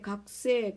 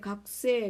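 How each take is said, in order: First: The middle u vowel is nearly silent. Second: The same.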